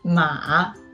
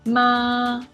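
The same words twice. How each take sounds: First: The pitch starts low and then rises. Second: The pitch stays high and level. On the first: "The third tongue is a low rising tongue" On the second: "The first one is a high-level tongue"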